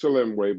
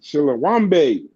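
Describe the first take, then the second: First: The name is said with three syllables. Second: The name is said with four syllables. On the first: The speaker calls it right. "I know it's Chilemwe" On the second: The speaker calls it wrong. "I know that's not how you pronounce it, but that's how I do"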